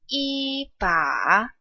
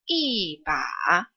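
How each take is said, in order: First: Yi has a high, level pitch. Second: Yi has a falling pitch.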